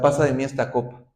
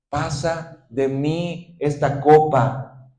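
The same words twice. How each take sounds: First: Rushed off fast and shallow; a quick careless "Pasa de mí esta copa"; hurried plea. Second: Drawn out very slowly, heavy with grief; slow tearful prayer of "Pasa de mí esta copa"; slow anguished plea. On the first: Nos quedamos hasta. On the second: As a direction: let each word of "Pasa de mí esta copa" hang in sorrow. Con ruegos y lágrimas. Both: Acted.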